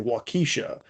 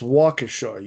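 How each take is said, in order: First: The name is said the way outsiders say it. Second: The name is said the way locals say it. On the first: The speaker calls it wrong. "they would always say Waukesha" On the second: The speaker calls it right. "it's Waukesha"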